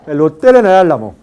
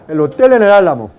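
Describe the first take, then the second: No difference in how they are said.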